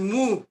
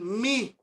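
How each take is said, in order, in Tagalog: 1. Ang patinig ay parang 'oo'. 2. Ang patinig ay parang 'ee'. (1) "Pero ang Erasmian pronunciation, mu" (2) "Sa modern mga kapatid, ang bigkas nila dyan, mi"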